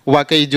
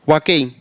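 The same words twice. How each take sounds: Both takes have the same delivery.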